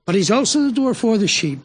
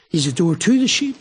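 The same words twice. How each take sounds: First: "for" given the weight in contrast; stress on for. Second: "to" held long and weighted; stress on to. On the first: Preacher finishing the contrast for listeners: stressed "for". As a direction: hit "for" as the answer to "to". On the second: Preacher summing up for the congregation: weighted "to". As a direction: lean on the word "to" to set up the contrast. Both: Shown as a demonstration. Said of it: "this whole aspect of the door".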